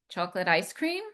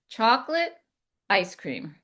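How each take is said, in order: First: The words are run together and unclear. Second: Each word is spoken clearly and distinctly. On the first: The speaker calls it wrong. "Not chocolate ice cream" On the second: The speaker calls it right. "I speak clearly"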